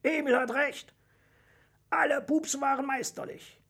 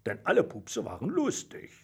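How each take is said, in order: First: High-pitched crowd approval; enthusiastic audience. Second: Lightly voiced dragon verdict; a hint of dragon hiss. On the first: Audience agrees with the dragon's verdict, enthusiastic. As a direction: call it out high with delight. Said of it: "begeistert von Emils Vorschlag aus dem Publikum". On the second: Dragon tells the contestants all were funny, mildly hissing. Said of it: "fauchte Drachenzahn". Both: A narrator's reading.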